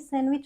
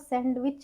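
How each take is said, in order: First: The d sound is silent in the word. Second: The d sound is pronounced in the word. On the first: The speaker calls it right. "हमारा डी silent होता है" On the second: The speaker calls it wrong. "वो सैंडविच नहीं"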